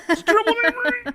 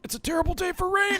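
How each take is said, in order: First: High, fast put-on voice through laughter; laughing meme quote. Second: High put-on voice, mock dramatic; joking meme quote. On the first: Friend repeating the meme line while laughing, high voice. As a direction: echo the joke while cracking up. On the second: Friends joking about crying over the anime, high mock voice. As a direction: pretend to hide tears behind the line. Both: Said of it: "that's the way I'm crying".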